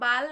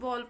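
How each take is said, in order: First: The vowel is an open 'aa' sound. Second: The vowel is a rounded 'aw' sound. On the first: The speaker calls it wrong. "बाल नहीं" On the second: The speaker calls it right. "बॉल पढ़ेंगे"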